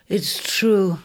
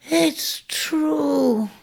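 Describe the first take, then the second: First: Said in the usual way. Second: A weak croak from a dying ram; hoarse croak. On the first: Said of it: "could only stagger attempts at his story". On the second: Acted. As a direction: rasp it out with no strength left. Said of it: "croaked Ares from aloft".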